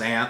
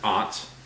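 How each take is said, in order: First: The vowel sounds like the one in 'cat'. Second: The vowel sounds like the one in 'father'. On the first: This is the local way of saying it. "I pronounce it ant" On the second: This is how people from further north say it. "people that come come from like north north of here ... pronounce it aunt"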